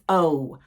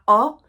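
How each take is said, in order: First: The vowel is said with tightly rounded lips. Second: The vowel is said with loosely rounded lips. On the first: The speaker calls it right. "My lips close very tightly" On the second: The speaker calls it wrong. "Not O"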